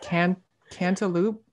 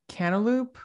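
First: The word sounds like 'can't elope'. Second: The word does not sound like 'can't elope'. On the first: The speaker calls it right. "like can't elope" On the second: The speaker calls it wrong. "I'm someone who says cantaloupe"

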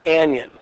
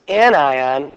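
First: The word sounds like onion. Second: The word does not sound like onion. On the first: The speaker calls it wrong. "not anion. That's not a vegetable, it isn't a member of the onion family" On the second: The speaker calls it right. "The second term is anion"

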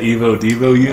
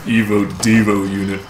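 First: It is said in a normal voice. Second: It is said in a deep voice.

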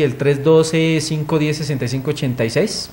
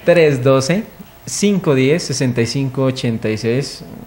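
First: The number is said quickly. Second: The number is said slowly and gently.

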